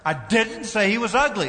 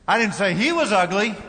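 First: The stress is on the word 'didn't'. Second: The stress is on the word 'he'. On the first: The speaker firmly denies saying it. "Emphasis on the second word" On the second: The speaker said it about someone else. "Might have said his sister was ugly"

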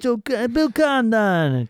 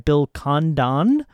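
First: The name is said in a New York accent. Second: The name is said in a Canadian accent. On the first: "Or a New York accent" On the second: "I was going for a really bad Canadian accent there"

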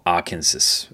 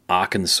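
First: The name is said as its spelling reads. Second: The name is said the customary local way.

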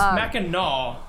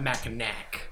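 First: The last syllable ends in an 'aw' sound. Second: The last syllable ends in an 'ack' sound. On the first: The speaker calls it right. "So it's Mackinac" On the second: The speaker calls it wrong. "not Mackinac"

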